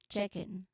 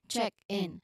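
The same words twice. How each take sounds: First: The two words are linked into one sound. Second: The two words are said as separate sounds. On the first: "in informal settings, usually we can say it as check in" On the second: "Separate sounds"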